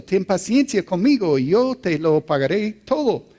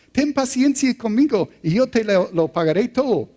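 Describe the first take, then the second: First: A milder plea, pitched a little higher; begging fellow servant. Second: Begging servant, voice pitched much higher; pleading servant. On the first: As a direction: ask for patience, gently imploring. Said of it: "le rogaba". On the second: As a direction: plead desperately for patience. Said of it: "le suplicaba". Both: A narrator's reading.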